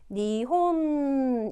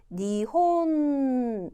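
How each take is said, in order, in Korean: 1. 마지막 n은 한 박자 동안 길게 유지해요. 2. 마지막 n은 한 박자 동안 길게 유지해요.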